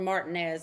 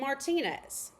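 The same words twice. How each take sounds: First: The name has an American English pronunciation. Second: The name has a Spanish-style pronunciation. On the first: This is how locals here would say it. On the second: This is how the name is originally said.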